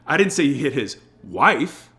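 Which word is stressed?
wife. The word "wife" is stressed.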